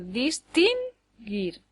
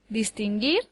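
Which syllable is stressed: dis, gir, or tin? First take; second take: tin; gir. First: The stress is on the second syllable. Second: The stress is on the last syllable. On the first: The speaker calls it wrong. "daría lugar a palabras que no existen" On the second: The speaker calls it right. "lleva el acento en la última sílaba"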